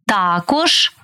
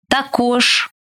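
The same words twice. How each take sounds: First: ТАкож, stressed on the first syllable. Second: ТаКОЖ, stressed on the final syllable; stress on last syllable. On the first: Teacher showing variant stresses to student, first-syllable stress on також. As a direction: punch ТА in також. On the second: Teacher showing variant stresses to student, final stress on також. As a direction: land on КОЖ in також. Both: Shown as a demonstration. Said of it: "Такий наголос ще називають варіантним".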